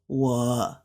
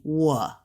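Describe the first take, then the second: First: 我 held low without climbing; low, sagging 我 as a counterexample; wrong tone demo. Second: 我 lifting up at the end; careful model of 我 going up; corrected rising tone. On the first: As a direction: keep 我 down, no upward lift. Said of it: "It wouldn't go like that". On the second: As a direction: glide 我 upward, as a second tone. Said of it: "it'll be 我". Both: Shown as a demonstration.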